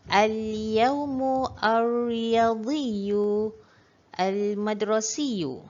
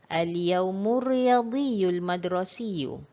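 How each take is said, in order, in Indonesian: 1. Setiap kata dibaca secara terpisah, tidak disambung. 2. Kata-kata itu disambung menjadi satu alur bacaan.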